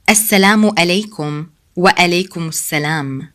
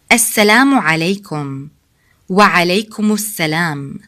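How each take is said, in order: First: السلام عليكم وعليكم السلام run together fast as one word; no pause between words. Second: السلام عليكم and وعليكم السلام joined smoothly as one word; no pause between words. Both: Shown as a demonstration. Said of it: "we don't stop between the two words".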